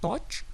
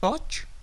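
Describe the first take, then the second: The two takes are said the same way.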